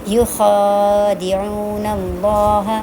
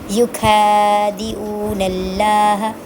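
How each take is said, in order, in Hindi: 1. 'yu' के बाद की आवाज़ खरखरी 'ख़ा' है। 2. 'yu' के बाद की आवाज़ सख़्त 'क' है। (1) "ख़ा के साथ ये लफ्ज़ कुछ और है" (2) "जो इसको खा पढ़ते हैं ना, वो ऐसे बोलते हैं इसको"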